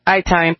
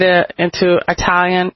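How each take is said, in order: First: "Italian" with a long first vowel, EYE-talian. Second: Said in the usual way. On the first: Shown as a demonstration. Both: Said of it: "or I should say Italian".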